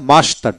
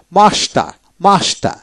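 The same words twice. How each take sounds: First: মাস্টার with the last R sounded; American final R. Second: মাস্টার ending on open A, R silent; British dropped R. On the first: Teacher shows American form to learners, R ends মাস্টার. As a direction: end মাস্টার on an R. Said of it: "আমেরিকানে". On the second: Teacher shows British form to learners, মাস্টার without R. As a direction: drop the final R of মাস্টার. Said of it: "ব্রিটিশে". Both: Shown as a demonstration.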